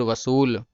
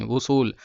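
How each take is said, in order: First: वसूल said with a v sound, the mistaken word; वसूल, starting with v, later corrected to उसूल; wrong word first. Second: उसूल said with an open u sound, no v; उसूल, starting on a plain u vowel, the corrected form; corrected word. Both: Shown as a demonstration. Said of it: "वसूल नहीं".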